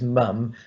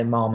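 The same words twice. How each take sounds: First: "mum" said with the short vowel of standard "mum"; standard "mum" pronunciation. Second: "mom" with an o vowel, Midlands style; Birmingham "mom". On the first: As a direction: say "mum", not Birmingham "mom". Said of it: "writing it as mum". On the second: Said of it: "in Birmingham we say mom". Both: Shown as a demonstration.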